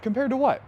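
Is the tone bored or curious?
curious. It is said in a lively, curious tone. The speaker genuinely wants to know. The speaker calls it right. "The other one was like, genuinely curious"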